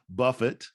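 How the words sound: It uses a British pronunciation. The speaker calls it wrong.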